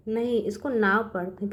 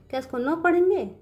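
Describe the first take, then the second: First: नाव said as "now", settled and sure; teacher gives the right reading नाव calmly; correct reading. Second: नो said as plain "no", raised as a doubting question; teacher tests the class with the wrong reading नो. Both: Shown as a demonstration.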